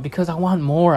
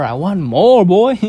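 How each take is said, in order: First: Said in the usual way. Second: Louder, higher, punching more; loud emphatic. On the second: Real, not acted. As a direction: belt it out with greed. Repeats the phrase louder.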